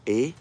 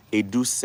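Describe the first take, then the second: First: "Eduse" split into three slow syllables; long pauses between each part of "Eduse"; broken down. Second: Said in the usual way. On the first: Shown as a demonstration. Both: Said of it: "take my time to break it down".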